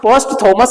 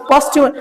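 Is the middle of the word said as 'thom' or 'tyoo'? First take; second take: thom; tyoo. First: The middle is said with a 'thom' sound. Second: The middle is said with a 'tyoo' sound. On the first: The speaker calls it wrong. "पोस्ट थॉमस नहीं" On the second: The speaker calls it right. "ये था नहीं पढ़ा जाता"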